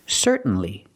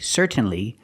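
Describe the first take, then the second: First: The T is a stop, not released. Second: The T is fully pronounced and released. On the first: The speaker calls it right. "I make a stop T" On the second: The speaker calls it wrong. "you can pronounce the T and you can say certainly"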